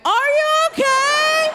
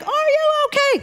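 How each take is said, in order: First: Very high, drawn-out yell; mock concerned yell. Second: Very high imitated doctor's call; mock urgent yell. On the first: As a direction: call it out slowly in a hammed-up high pitch. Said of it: "I say the stupidest thing ever". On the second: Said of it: "the doctor says it again".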